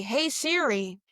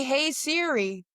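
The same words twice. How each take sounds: First: Said in the usual way. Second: Slow, stretched "Hey, Siri"; drawn-out Siri call. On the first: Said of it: "you know, say". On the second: Shown as a demonstration. Telling friends how to text, slow and drawn out. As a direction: drag out "Hey, Siri" like calling the phone. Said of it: "Maybe say".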